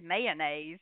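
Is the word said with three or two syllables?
three. It is said with three syllables, Chicago style.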